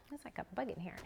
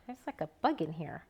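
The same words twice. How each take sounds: First: Hushed whisper, no voice. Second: Said in the usual way. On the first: Real, not acted. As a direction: whisper it so nobody hears. Repeats it whispering.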